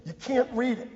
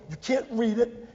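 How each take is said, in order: Both takes have the same delivery.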